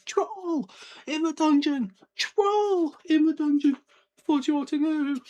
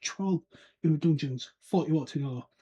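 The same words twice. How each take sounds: First: Slow, high shouted alarm; frantic shout. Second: Gasped warning. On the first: Retold or imitated. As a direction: yell it to the whole hall. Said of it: "properly shouting". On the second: A narrator's reading. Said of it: "slumped against the table and gasped".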